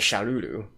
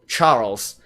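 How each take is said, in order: First: The name is said the Japanese way. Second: The name is said the plain English way.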